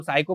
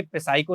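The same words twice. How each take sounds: First: "साइको" starting straight on the s sound, P silent. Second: "पे साइको" with an extra p syllable before the s; P wrongly sounded. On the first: Teacher showing students the spelling's silent P, correct pronunciation "साइको". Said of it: "यहाँ पे पी silent है". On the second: Teacher showing students the misreading to avoid, P sounded in "पे साइको". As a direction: voice the silent P as a separate "पे" ahead of "साइको". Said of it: "पे साइको नहीं पढ़ेंगे". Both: Shown as a demonstration.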